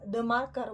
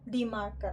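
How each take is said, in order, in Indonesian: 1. 'The' diucapkan dengan bunyi vokal pendek 'thuh'. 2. 'The' diucapkan dengan bunyi vokal panjang 'thee'. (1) "Berarti kita pakainya the"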